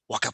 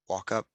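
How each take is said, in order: First: It is said with intense, urgent energy. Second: It is said with calm, steady energy.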